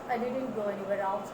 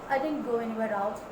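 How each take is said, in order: Both takes have the same delivery.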